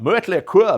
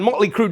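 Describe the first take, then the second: First: The vowels are pronounced as German umlaut vowels. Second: The vowels are pronounced as plain English vowels.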